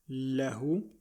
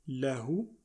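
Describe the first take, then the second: Both takes have the same delivery.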